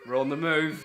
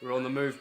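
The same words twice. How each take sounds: First: Louder, gleeful second go; excited repeat. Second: Said in the usual way. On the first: Acted. To her partner, gleefully repeating the news louder. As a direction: punch it out with glee.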